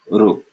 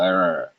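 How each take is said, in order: First: An r sound followed by a u-like vowel. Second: A single r-colored vowel like English er. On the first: This is the southern Indian and Gujarati pronunciation. "in the south and in Gujarat, they will pronounce this ru" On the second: This is the ancient pronunciation. "in ancient times, this was sounded more like an English er sound"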